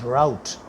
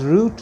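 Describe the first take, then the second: First: The word is said with an American pronunciation. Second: The word is said with a British pronunciation. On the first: This is how people in the USA say it. The speaker calls it right. "because they pronounce it as route" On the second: Listeners in the USA will not understand it. The speaker calls it wrong. "if you pronounce it as route, no one will understand you"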